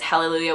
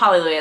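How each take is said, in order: First: The first syllable is said like 'hell'. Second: The first syllable is said as plain 'hal'. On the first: The speaker calls it right. "with like hell" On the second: The speaker calls it wrong. "It's not Hallelujah"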